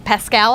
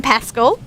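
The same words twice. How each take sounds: First: "Pascal" with a full second vowel; second pronunciation attempt. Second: "Pascal" with a reduced second syllable; trying a pronunciation. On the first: Host retrying a surname for Americans, "Pascal" said as pass-KAL. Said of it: "how you say that with an American accent". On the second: Host unsure of a guest's surname, "Pascal" said as PASS-kull. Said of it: "not sure how you say that". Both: Shown as a demonstration.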